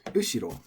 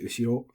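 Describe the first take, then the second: First: The pitch is high first, then low. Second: The pitch stays flat with no fall. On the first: This is a regional way of saying it. "like atamadaka" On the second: This is the standard dictionary form. "So I recommend we all say"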